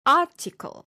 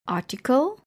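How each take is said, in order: First: ARticle, high punched opening; stress on first syllable. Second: Said in the usual way. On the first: Shown as a demonstration. Teacher showing pronunciation, first syllable stressed in "article". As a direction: hit AR high in "article", drop the rest. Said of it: "the stress is usually on the first syllable". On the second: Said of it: "is pronounced as".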